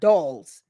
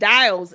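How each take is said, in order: First: The vowel sounds like the 'o' in dolls. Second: The vowel sounds like the 'i' in dials. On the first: The speaker calls it right. "not dolls" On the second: The speaker calls it wrong. "Saying dials and not dolls"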